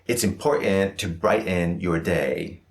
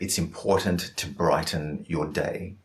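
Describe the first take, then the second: First: The T sounds are glottal stops, only implied. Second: The T sounds are clearly and fully released. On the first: The speaker calls it wrong. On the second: The speaker calls it right.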